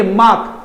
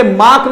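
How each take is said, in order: First: मार्क with a silent R, "maak"; correct pronunciation. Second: मार्क with the R sounded, "mark"; wrong pronunciation. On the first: Teacher correcting students, R-less pronunciation. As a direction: drop the R after the vowel in मार्क. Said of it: "आपके बाद रहे आता ही नहीं". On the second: Teacher showing students what to avoid, R pronounced. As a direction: show the R in मार्क. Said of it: "आगे से मार्क नहीं बोलेंगे". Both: Shown as a demonstration.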